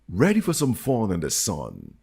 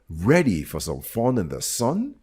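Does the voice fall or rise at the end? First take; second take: falls; rises. First: The voice does not rise at the end. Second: The voice rises at the end. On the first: The speaker calls it wrong. "No, sorry" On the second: The speaker calls it right. "This is a question, so it's rising"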